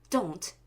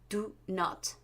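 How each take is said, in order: First: The words are contracted into one syllable. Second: Both words are said in full.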